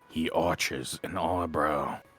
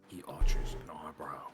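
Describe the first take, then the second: First: It is said at a louder volume. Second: It is said at a quieter volume.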